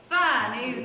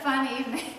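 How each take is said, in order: First: It is said with lively, varied inflection. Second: It is said flatly with little inflection. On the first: The speaker calls it right. "That's what I like to see" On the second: The speaker calls it wrong. "Could you give a little more inflection in that?"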